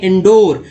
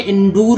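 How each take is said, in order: First: The second syllable has an 'oh' vowel. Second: The second syllable has a long 'oo' vowel. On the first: The speaker calls it right. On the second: The speaker calls it wrong. "इंडूर नहीं"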